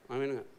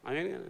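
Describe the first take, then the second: First: "amin" with a falling tune, sounding like aman; amin said flat. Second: Said in the usual way. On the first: Shown as a demonstration. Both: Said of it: "Ini amin apa aman nih".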